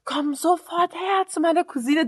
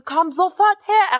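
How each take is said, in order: First: Said in the usual way. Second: Slow, raised uncle's command; angry uncle shout. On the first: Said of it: "Er sagt so". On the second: Retold or imitated. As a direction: bark it slowly like an uncle losing it. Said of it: "Er rastet richtig aus".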